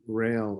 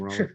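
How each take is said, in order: First: The name is said as one syllable, rail. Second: The name is said as two syllables, Raleigh. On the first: It is a phonetic reading of the spelling. The speaker calls it wrong. "I call him rail" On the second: It is the French form of the name. The speaker calls it right. "you guys call him roller"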